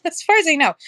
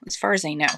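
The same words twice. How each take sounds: First: Laughing. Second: Said in the usual way. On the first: Real, not acted. Laughing repeat of own hedge.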